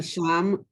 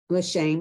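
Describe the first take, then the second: First: The vowel after 'sh' is an 'ah' sound. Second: The vowel after 'sh' is an 'eh' sound. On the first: The word means there. The speaker calls it wrong. "sham is there" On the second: The word means name. The speaker calls it right. "shame is name"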